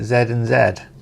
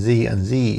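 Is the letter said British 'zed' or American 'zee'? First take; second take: British zed; American zee. First: The letter is said as British zed. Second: The letter is said as American zee.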